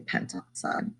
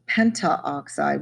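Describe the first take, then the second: First: The 'a' before 'oxide' is left out. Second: The 'a' before 'oxide' is pronounced. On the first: The speaker calls it right. "we say pentoxide" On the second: The speaker calls it wrong. "we don't say pentaoxide"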